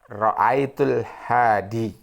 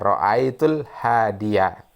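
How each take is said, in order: First: The last word ends on a plain long i. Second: The last word ends with an added -ya. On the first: The speaker calls it wrong. "ini contoh kalimat yang salah" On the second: The speaker calls it right. "Yang benarlah ra'aitul hadiyah"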